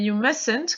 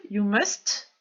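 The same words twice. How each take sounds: First: "you mustn't" without the first t; silent middle T. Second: "you must" with the final t sounded; T pronounced. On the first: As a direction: say "mustn't" as "mussn't", s running straight into n. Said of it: "je ne vais pas prononcer le T". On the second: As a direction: finish "must" on an audible T after the s. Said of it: "Je le prononce à la forme positive". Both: Shown as a demonstration.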